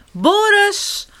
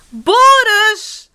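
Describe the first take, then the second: First: High urgent call; first alarmed shout for a brother, pitched right up; little sister calling for help. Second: Very high, loud urgent yell; little sister's escalating cry for help; calling out louder. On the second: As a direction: shout the name with full alarm, stretched out. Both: A narrator's reading. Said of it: "roept zusje Sam".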